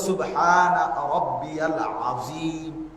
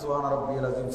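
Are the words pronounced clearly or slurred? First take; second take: clearly; slurred. First: Every word is pronounced clearly and fully. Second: The words are run together and slurred. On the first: The speaker calls it right. "শব্দ তো হলো" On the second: The speaker calls it wrong. "কি বললেন? এটা তো হয় নাই"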